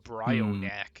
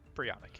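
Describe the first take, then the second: First: The name is said in an exaggerated American accent. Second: The name is said in a plain, neutral accent.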